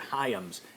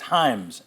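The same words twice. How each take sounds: First: The name does not rhyme with 'rhymes'. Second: The name rhymes with 'rhymes'. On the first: The speaker calls it wrong. "I slipped. I said Hyams" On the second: The speaker calls it right. "H I M E S is kind of the, the pronunciation. It rhymes with rhymes"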